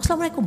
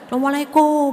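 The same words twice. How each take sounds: First: It is said in an angry, curt voice. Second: It is said loudly in a high pitch. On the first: The couple are in the middle of a quarrel. "mengucapkan salamnya dengan marah gitu" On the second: The speakers are far apart, calling across the house. "Nadanya tinggi gitu ya"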